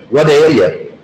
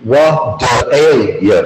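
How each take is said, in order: First: Said in the usual way. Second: "What ail ya" slowly, each word stretched apart; slow demo of "What ail ya". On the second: Shown as a demonstration. Teacher breaks phrase down word by word.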